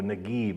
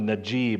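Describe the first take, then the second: First: The middle consonant is a hard g sound. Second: The middle consonant is a soft j sound.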